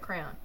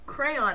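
First: The word is said quickly and compressed. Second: The word is said at a careful pace. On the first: "I just said it quickly, so it was like crayon" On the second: "I said crayon"

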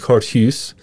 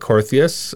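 First: The name is pronounced with Dutch sounds. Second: The name is pronounced with anglicized sounds. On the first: This is how the name is said in its home country. "In Holland, it would be Korthuis" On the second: This is the form the family adopted abroad. "my parents go with Korthuis"

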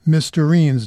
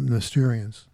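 First: The ending rhymes with tangerine. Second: The ending does not rhyme with tangerine. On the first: The speaker calls it right. "it rhymes with tangerine" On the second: The speaker calls it wrong. "not Mysterians"

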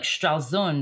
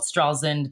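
First: It is said with a German pronunciation. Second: It is said with an American pronunciation.

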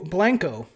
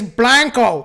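First: It is said in a neutral, non-Texan accent. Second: It is said in a thick Texas accent. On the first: "I'm probably butchering this shit" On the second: "If you're from Texas and you got a thick ass accent"

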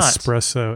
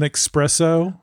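First: The word begins with an es sound. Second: The word begins with an ex sound. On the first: The speaker calls it right. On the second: The speaker calls it wrong.

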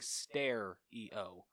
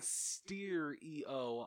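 First: The first syllable sounds like the word stare. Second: The first syllable sounds like the word steer. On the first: This is how the speaker says it. "I am saying stare-E-O. Like, stairs you walk up" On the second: This is how the other person says it. "You are saying steer-E-O"

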